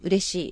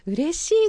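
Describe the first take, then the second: First: It is said in a flat, unexpressive tone. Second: It is said in a bright, happy tone. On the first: The feeling behind the word does not come across. The speaker calls it wrong. "嬉しいって言うんではなくて" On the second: The feeling of joy comes across to the listener. The speaker calls it right. "嬉しいって言うわけですね。やっぱ声のトーンであるとか"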